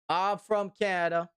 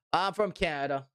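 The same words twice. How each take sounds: The two takes are said the same way.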